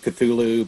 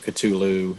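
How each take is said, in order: First: The name is said with softer sounds. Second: The name is said with harder sounds. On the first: "I've always gone with Cthulhu" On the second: "I've heard the harder"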